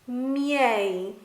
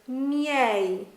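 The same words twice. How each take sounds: The two takes are said the same way.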